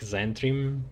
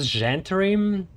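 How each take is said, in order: First: The name begins with a Z sound. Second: The name begins with a J sound. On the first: "they just ignore H. It seems like Zentrim" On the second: "If there is Z H, sounds like a j- Gen"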